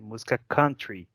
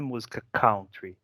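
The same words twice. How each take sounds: First: The first syllable of country sounds like 'cun'. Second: The first syllable of country sounds like 'cow'. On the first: It means music of the countryside. The speaker calls it right. "é música country, que é de país e não de vaca" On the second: It sounds like it is about cows. The speaker calls it wrong. "Não é música country"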